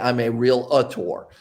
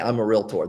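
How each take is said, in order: First: Realtor is said with three syllables, real-uh-tor. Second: Realtor is said with two syllables, real-tor. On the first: The speaker calls it wrong. "There's no uh in realtor" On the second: The speaker calls it right. "they don't say I'm a realtor"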